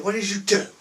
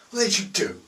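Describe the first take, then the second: First: High, loud, outraged demand; furious boss yelling at idiots; angry dealer. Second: Same high, loud outrage again; furious boss, still yelling; angry dealer repeat. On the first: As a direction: tear into the chavs. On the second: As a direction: hammer the question home. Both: Retold or imitated. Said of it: "they could be swearing".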